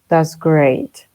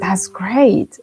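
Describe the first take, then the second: First: It is said with flat, unenthusiastic intonation. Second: It is said with lively, enthusiastic intonation. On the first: The speaker calls it wrong. "No vamos a decir" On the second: The speaker calls it right. "No, it's"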